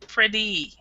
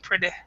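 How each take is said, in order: First: The final vowel is clearly pronounced like ee. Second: The final vowel sound is dropped. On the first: The speaker calls it right. "we actually pronounce it kind of like E" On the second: The speaker calls it wrong. "what I'm hearing is a lot of people saying pretty, pretty. So they're not actually pronouncing this last syllable"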